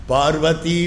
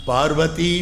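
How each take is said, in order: The two takes are said the same way.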